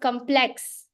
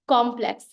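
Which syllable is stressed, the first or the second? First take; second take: second; first. First: The stress is on the second syllable. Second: The stress is on the first syllable. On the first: The speaker calls it wrong. "accent being a moment of force in the second half of the word" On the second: The speaker calls it right. "the force of that word actually comes in the first"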